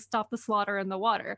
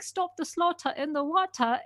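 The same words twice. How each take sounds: First: It is said in an American accent. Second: It is said in an English accent.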